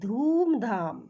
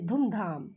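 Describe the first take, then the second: First: The first vowel is a long u sound. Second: The first vowel is a short u sound. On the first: The speaker calls it right. "दीर्घु की मात्रा डालेंगे तब हम इसे आसानी से बोलेंगे" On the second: The speaker calls it wrong. "अगर हरसू की मात्रा है तो हम बोलेंगे"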